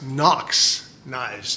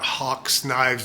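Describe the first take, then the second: First: The name begins with an N sound. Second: The name begins with an H sound. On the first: The speaker calls it right. "These are actually pronounced Nox knives" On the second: The speaker calls it wrong. "I was pronouncing this incorrectly"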